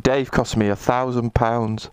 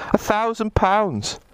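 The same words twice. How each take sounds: First: Said in the usual way. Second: Delighted repeat. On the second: Real, not acted.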